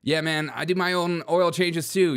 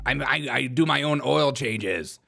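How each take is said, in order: First: Said in the usual way. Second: Slow, boastful mock Irish; put-on Irish accent. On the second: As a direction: brag slowly with a light Irish put-on. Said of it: "my Irish accent".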